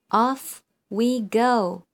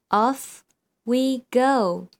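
Both takes have the same delivery.

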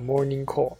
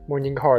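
First: It is said with Japanese pronunciation. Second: It is said with English pronunciation.

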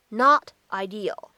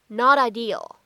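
First: The words are separate, with 'not' emphasized. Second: The t is a flap linked into 'ideal'. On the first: "如果你不做连读呢也是完全可以的" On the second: "我们可以做一个连读，在美式发音当中呢还有一个闪音的处理"

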